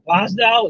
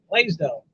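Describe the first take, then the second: First: The first syllable has the short vowel of 'glass'. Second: The first syllable has the long vowel of 'blaze'. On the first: The speaker calls it wrong. "she pronounces it Blas, Blasdell. B L A S" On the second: The speaker calls it right. "It's Blaisdell"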